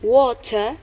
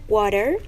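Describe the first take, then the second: First: It is said with an Australian accent. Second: It is said with an American accent. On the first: "In Australian accent would sound like water" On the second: "in American accent would sound like water"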